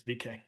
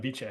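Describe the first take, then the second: First: "V K" run together as VEE-kay; Latin pronunciation. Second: "vice" said as VEE-chay; Italian-style pronunciation. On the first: Lecturer gives the Latin reading, "V K" said vee-kay. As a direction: say "V K" as one Latin word with a hard K. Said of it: "It's Latin. It should be vice". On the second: Lecturer rejecting the Italian reading, "vice" said vee-chay. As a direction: say "vice" in two syllables with a CH. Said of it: "it's V K". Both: Shown as a demonstration.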